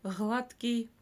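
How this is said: The first consonant is a soft fricative, regional.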